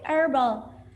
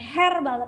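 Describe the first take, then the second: First: The h at the start is silent. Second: The h at the start is pronounced. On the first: The speaker calls it right. "yang keluar adalah bunyi vokal" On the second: The speaker calls it wrong. "bukan herbal"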